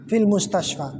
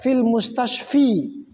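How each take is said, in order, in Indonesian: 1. Kata terakhir diakhiri dengan vokal 'a'. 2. Kata terakhir diakhiri dengan vokal 'i'. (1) "Tetap dibaca fil mustashfa" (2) "Tidak perlu kita baca fil mustashfi"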